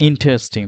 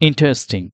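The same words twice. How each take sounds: No difference in how they are said.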